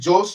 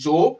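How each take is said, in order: First: The name ends with an audible s sound. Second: The name ends on the vowel, without s. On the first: The speaker calls it wrong. "না জোস নয়" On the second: The speaker calls it right. "ওর এসটা silent, ওটা উচ্চারণ হচ্ছে জো"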